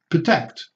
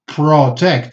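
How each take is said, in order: First: The first vowel is a reduced schwa. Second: The first vowel is a full vowel. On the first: The speaker calls it right. "nothing there" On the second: The speaker calls it wrong. "Don't say protect"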